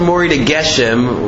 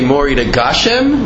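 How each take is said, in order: First: The last word has an 'e' vowel: geshem. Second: The last word has an 'a' vowel: gashem. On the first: "with a segel" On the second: "with a kamatz"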